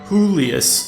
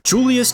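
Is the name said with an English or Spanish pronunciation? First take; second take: Spanish; English. First: The name is said with a Spanish pronunciation. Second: The name is said with an English pronunciation. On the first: The speaker calls it right. "I guess now I should use the Spanish pronunciation" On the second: The speaker calls it wrong. "my bad"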